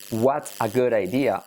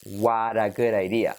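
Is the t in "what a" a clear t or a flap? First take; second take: clear t; flap. First: The t in "what a" is a clear t. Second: The t in "what a" is a soft flap.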